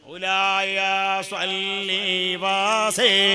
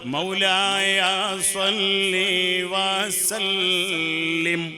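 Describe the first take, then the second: First: The last word is clipped to a short 'wase'. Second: The last word is said fully as 'wasallim'. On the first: The speaker calls it wrong. "അങ്ങനല്ല, അത് തെറ്റാ" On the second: The speaker calls it right. "അവിടെ full stop"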